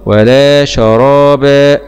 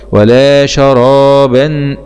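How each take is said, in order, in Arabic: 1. تنتهي الكلمة الأخيرة بصوت مدّ الألف. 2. تنتهي الكلمة الأخيرة بصوت نون واضح. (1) "نقف عليها مد عوض" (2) "باء فتحتين مع الإزهار الحلقي لأنه جاء بعدها حرف همزة"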